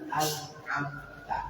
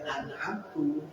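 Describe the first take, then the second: First: The word ends with an 'a' vowel. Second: The word ends with a 'u' vowel. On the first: The one addressed gave the favour. The speaker calls it right. "itu kan yang benar" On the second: The speaker gave the favour. The speaker calls it wrong. "yang aku beri nikmat. Nah ini bisa merubah makna"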